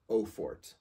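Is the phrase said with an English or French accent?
English. It is said with a plain English accent. "if you don't want to try to make the sound, or sound French"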